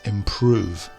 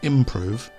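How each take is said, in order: First: The stress is on the second syllable. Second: The stress is on the first syllable. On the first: The speaker calls it right. "the emphasis is on the P R O section" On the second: The speaker calls it wrong. "not at the start. It's not improve"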